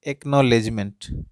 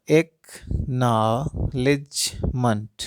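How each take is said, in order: First: Said in the usual way. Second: एक्नॉलेजमेंट drawn out slowly, split into its syllables like claps. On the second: Shown as a demonstration. Teacher shows parents how to clap out syllables, slow and broken. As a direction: stretch एक्नॉलेजमेंट out, one clap per syllable. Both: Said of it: "कितने बार ताली बज रहा है".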